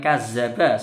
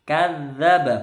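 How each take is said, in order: First: The doubled consonant is a plain 'z' sound. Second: The doubled consonant is a dental 'dh' sound. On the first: The speaker calls it wrong. "bukan kazzaba, salah ya" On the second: The speaker calls it right. "Lidahnya nempel di gigi atas"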